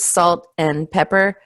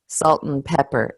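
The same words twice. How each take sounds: First: Each word is said separately. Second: The words run together like one word. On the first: "instead of three words" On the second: "It almost sounds like one long word"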